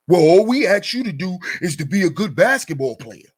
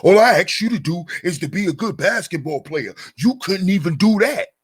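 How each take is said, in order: First: Mocking belittling quote. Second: Belittling mock quote. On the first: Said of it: "look at how he's belittling his character".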